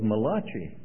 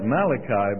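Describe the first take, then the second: First: The name is said with an Italian pronunciation. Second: The name is said with the usual English pronunciation. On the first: The prophet is claimed as Italian. "there was an Italian prophet by the name of Malachi" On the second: This is the usual way of saying the name. "now you and I'd call that Malachi"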